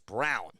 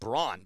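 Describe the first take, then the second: First: The name is said like the color brown. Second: The name is said the way it is spelled. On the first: The speaker calls it right. "It's Brown. That's how you pronounce it" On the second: The speaker calls it wrong. "you would think ... that it would be pronounced Braun, but it's not"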